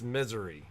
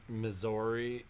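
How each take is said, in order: First: The name is said so it sounds like misery. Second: The name is said the usual way, as Missouri. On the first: This is how locals say the name. The speaker calls it right. "No, it's misery" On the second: This is how an outsider says the name. The speaker calls it wrong. "I think I pronounced it Missouri"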